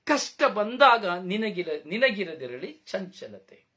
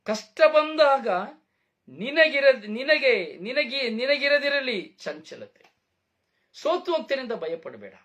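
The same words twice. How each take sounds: First: "ಕಷ್ಟ ಬಂದಾಗ" read out slowly and evenly, fading on "ನಿನಗಿರದಿರಲಿ ಚಂಚಲತೆ"; slow scripture reading. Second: Emphatic proclamation. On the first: Preacher reading the verse to the congregation, slow and measured. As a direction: recite the verse slowly and calmly, letting it settle. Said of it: "ಅದಕ್ಕೆ ವಾಕ್ಯ ಹೇಳ್ತದೆ". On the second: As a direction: proclaim the verse back with force and weight. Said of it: "ಇಲ್ಲ". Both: Shown as a demonstration.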